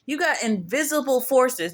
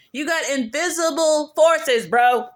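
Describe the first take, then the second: First: Said in the usual way. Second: Invisible forces said higher, louder and slow; emphatic repeat. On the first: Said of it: "repeats it heavier". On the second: Shown as a demonstration. To the viewer, warning with slow, loud emphasis. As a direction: lean hard on invisible forces. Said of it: "repeated for emphasis".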